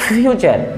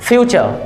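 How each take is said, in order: The two takes are said the same way.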